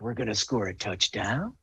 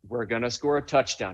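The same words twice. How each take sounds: First: The voice rises at the end like a question. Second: The voice falls at the end like a statement. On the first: It sounds like an uncertain question. The speaker calls it wrong. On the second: It is a confident statement. The speaker calls it right.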